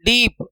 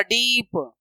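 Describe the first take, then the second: First: Said in the usual way. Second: डीप with a long drawn-out ee, softer; long vowel. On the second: Shown as a demonstration. Teacher showing pupils it is no short vowel, drawn out. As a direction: stretch the ee right through डीप. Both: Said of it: "long vowel आ रहा है".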